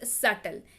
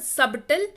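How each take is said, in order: First: The b sound is left out entirely. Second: The b sound is pronounced in the middle. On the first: The speaker calls it right. "It is सटल" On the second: The speaker calls it wrong. "It is not सबटल"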